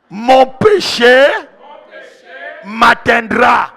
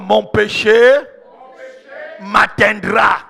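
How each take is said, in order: First: It is said more loudly. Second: It is said at normal volume.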